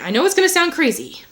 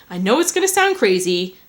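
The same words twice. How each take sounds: First: Higher-pitched retake of a mock English son; English accent attempt. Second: Said in the usual way. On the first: Son confesses to mother, high mock English accent. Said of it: "where my English accent went". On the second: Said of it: "I don't know where my English accent went".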